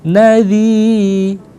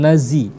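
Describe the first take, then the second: First: The middle consonant is a soft 'th' sound. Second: The middle consonant is a buzzing 'z' sound. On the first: The speaker calls it right. "jadi memang dilembutkan" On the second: The speaker calls it wrong. "jangan nazi"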